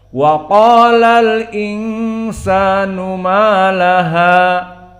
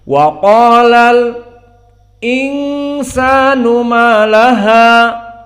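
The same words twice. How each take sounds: First: 'Al' runs straight into 'insanu' without stopping. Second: A brief stop comes after 'al' before 'insanu'. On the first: "tidak dinaql, tidak dihapus, ... tidak berhenti" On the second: "kita sukut sampai kepada alif lam, ... kemudian sukut, kemudian masuk hamzah"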